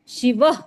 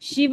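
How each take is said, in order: First: The word is said with stress on the marked sound. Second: The word is said plainly, without extra stress. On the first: The speaker calls it right. "you have to stress on those alphabets" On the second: The speaker calls it wrong. "शिव नहीं बोलना है"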